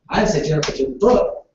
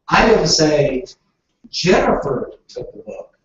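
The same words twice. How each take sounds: First: The word book carries the stress. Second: The word Jennifer carries the stress. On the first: Something other than the book was taken. "Jennifer took my phone, not the book" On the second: A different person took the book. "I said Tom took the book"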